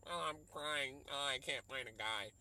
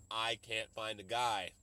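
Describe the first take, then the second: First: Hammed-up whiny lament; lightly mock the weepy heroine; mock movie heroine. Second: Said in the usual way. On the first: Mocking the movie's heroine crying over her love life, in a whiny voice. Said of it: "It was just like". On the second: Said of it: "But now".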